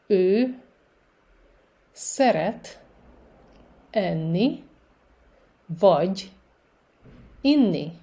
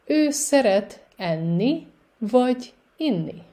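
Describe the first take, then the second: First: Very slow, a long gap after every word; slow repetition. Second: Careful demo with shorter gaps between words; a little faster. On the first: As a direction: dictate it word by word for beginners. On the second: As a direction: join the words up a bit, still clearly separated. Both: Shown as a demonstration. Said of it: "And a little faster".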